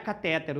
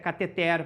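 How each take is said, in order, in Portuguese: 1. A tônica cai na sílaba do meio. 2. A tônica cai na última sílaba. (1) "mas não é catéter" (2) "o certo é cateter"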